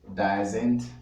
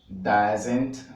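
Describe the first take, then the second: Both takes have the same delivery.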